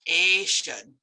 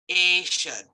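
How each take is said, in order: The two takes are said the same way.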